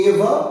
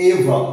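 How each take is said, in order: First: Ever said loud with a rising tune; stressed ever. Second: Ever said loud and low with a falling tune after its sounds; ever rebuilt. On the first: Teacher models Ever aloud for students, loud. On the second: Teacher puts ever back together, falling tune. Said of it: "ই, v, অ". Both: Shown as a demonstration.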